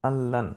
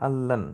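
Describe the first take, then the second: The two takes are said the same way.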